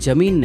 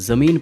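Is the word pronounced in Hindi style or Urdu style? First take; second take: Hindi style; Urdu style. First: It is said without the Urdu-style consonant sound. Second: It is said with the Urdu-style consonant sound. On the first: The speaker calls it wrong. "नहीं" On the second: The speaker calls it right. "Urdu में ... पढ़ा जाता है"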